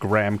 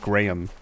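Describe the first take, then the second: First: It is said the American way, like gram. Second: It is said the Australian way, like the name. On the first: "in at least in American English, it's pronounced graham" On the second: "to me as a, an Australian, that's always Graham"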